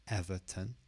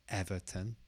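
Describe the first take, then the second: The two takes are said the same way.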